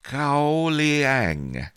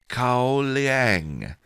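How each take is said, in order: First: "Cao Liang" repeated, stressed on Cao. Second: "Cao Liang" said slowly, louder. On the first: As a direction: say "Cao Liang" again, firmly. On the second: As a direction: pronounce "Cao Liang" clearly. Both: Shown as a demonstration.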